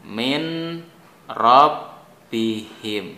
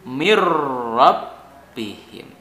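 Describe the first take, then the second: First: The n sound is clearly pronounced before r. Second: The n sound merges into a doubled r. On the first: "Ini bacaan normalnya begini" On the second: "bunyi n-nya itu ... jadi hilang atau kalah dengan ro"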